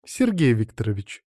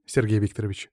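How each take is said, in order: First: Relishing. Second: Said in the usual way. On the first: A narrator's reading. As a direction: savour the name and patronymic. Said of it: "с каким-то особенным удовольствием произнесла Марина". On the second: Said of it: "вдруг заявила лекарка".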